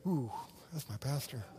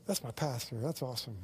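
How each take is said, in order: First: Disappointed aside. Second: Approving aside. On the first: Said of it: "you'd be like". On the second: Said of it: "you'd go". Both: Retold or imitated.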